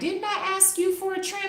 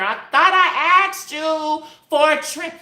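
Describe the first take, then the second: First: It is said at a softer volume. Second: It is said at a louder volume.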